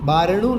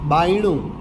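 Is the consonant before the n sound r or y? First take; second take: r; y. First: The consonant before the n sound is r. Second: The consonant before the n sound is y. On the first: This is the standard form. "બારણું નહીં" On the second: This is the North Gujarat Patni dialect form. "હણની પહેલા ર આવ્યો તો બાયણું"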